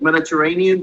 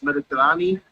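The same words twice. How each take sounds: First: The word ends like English 'Mediterranean'. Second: The word ends with a changed 'ee' ending. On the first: The speaker calls it wrong. "it looks like Mediterranean" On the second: The speaker calls it right. "but it's Mediterranean"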